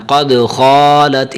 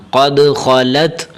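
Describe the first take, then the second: First: قد خالت with the vowel of خا dragged long; wrongly stretched kha. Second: قد خالت with short, even vowels; unstretched kha. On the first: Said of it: "اس طرح نہیں پڑھنا". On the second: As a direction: keep both kha and lam short in خالت. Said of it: "خا کو نہیں کھینچنا". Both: Shown as a demonstration.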